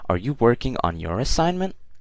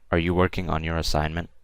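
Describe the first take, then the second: First: It ends with a rising, questioning tune. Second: It ends flat or falling, like a statement.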